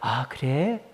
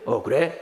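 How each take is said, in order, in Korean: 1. 부드럽고 다정한 말투로 말하고 있어요. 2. 건조하고 퉁명스러운 말투로 말하고 있어요. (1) "목소리도 나긋나긋하게" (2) "평소에는"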